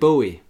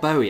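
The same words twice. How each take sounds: First: The name rhymes with Joey. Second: The name does not rhyme with Joey. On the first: This is the name's actual pronunciation. The speaker calls it right. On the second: This is how people commonly say it. The speaker calls it wrong.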